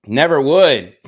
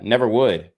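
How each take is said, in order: First: Louder, firmer "Never would"; emphatic repeat. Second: Said in the usual way. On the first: Real, not acted. Vlogger insisting to viewers he never would, louder and firm. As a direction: slam the denial down the second time. Vlogger denying he promotes violence.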